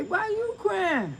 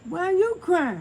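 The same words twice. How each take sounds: First: Drawn-out high question; slow, lifted asking why he cries; first, gentler take of why you crying; retold question to crying daddy. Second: Louder, higher, crying; second, more tearful take of why you crying; retold question, now near tears. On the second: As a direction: push the question through tears. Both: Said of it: "I say".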